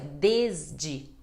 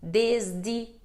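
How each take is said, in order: First: The last d sounds like a soft 'j'. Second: The last d sounds like a plain hard 'd'. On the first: "o último D tem som de di, mas o primeiro tem som de D" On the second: "com som de D"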